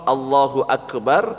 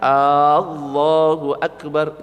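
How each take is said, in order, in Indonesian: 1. Vokal pertama diucapkan pendek. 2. Vokal pertama dipanjangkan.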